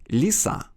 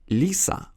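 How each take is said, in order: No difference in how they are said.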